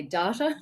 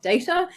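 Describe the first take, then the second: First: "data" said the Australian way, dah-tuh. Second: "data" said as day-tuh, not the Australian way; the other data. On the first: Apologising to her audience for her accent, "data" as dah-tuh. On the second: Contrasting her own word with the audience's, "data" as day-tuh. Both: Shown as a demonstration. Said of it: "I'm Australian and I say data".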